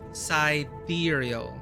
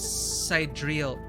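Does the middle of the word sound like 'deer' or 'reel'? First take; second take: deer; reel. First: The middle of the word sounds like 'deer'. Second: The word sounds like 'side reel'. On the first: The speaker calls it right. "Remember deer" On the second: The speaker calls it wrong. "Oh my god"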